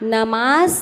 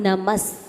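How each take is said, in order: First: The vowel after the m is drawn out long. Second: The vowel after the m is kept short. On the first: The speaker calls it wrong. "नमास नहीं" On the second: The speaker calls it right. "माँ पर डंडा है क्या?"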